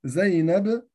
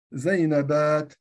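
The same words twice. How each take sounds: First: Said in the usual way. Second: زينبات drawn out slowly, ending stretched; slow demo of the plural. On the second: Shown as a demonstration. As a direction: spell out زينبات syllable by syllable. (نطق زينبات ببطء وتمهل) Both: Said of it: "فماذا فعلت أنا هنا؟".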